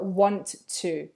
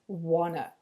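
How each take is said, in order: First: Each sound is said fully and separately. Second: The T sounds are dropped and joined.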